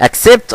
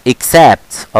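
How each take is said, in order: First: Mock-wrong "Accept" with a narrow E; wrong pronunciation. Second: Corrected "Accept", ik-SAPT; correct pronunciation. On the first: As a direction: ACCEPT as ak-SEPT, pitched high, short E. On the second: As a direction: ACCEPT as ek-SAEPT, open second vowel, falling. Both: Shown as a demonstration. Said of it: "غلط".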